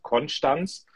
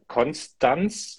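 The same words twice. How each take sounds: First: It is said the local Konstanz way. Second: It is said the North German way.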